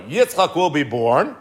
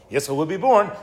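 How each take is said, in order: First: Slowed, weighty announcement; drawn-out reveal of the birth; slow emphasis. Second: Said in the usual way. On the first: Shown as a demonstration. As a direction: let each word land slowly.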